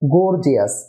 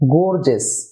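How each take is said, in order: First: The ending has an extra 'ee' before 'us'. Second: The ending is a short 'us' sound. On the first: The speaker calls it wrong. "আমরা সাধারণত একে বলি gorgeous, যা সঠিক নয়" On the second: The speaker calls it right. "এর উচ্চারণ হবে gorgeous"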